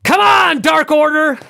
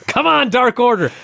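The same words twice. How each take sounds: First: High, loud screamed cheer; Chris Jericho. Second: Milder mock cheering yell, raised pitch; Chris Jericho. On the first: Retold or imitated. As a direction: scream it out like an over-keen heel fan. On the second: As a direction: imitate a fan's scream at half strength. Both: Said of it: "and he screams".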